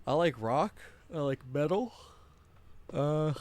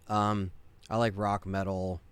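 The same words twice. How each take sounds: First: Words stretched through a yawn; sleepy yawn dragging the words. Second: Said in the usual way. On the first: Real, not acted. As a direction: say it mid-yawn, mouth wide open. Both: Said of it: "sorry about the yawn".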